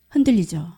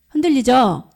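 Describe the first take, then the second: First: Said in the usual way. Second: Louder, emphatic prompt. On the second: Real, not acted. Preacher repeats to draw the congregation's amen, emphatically. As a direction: push 흔들리죠 out firmly to rouse the room.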